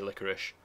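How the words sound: The word is pronounced the American way. "It's Americans who say licorice"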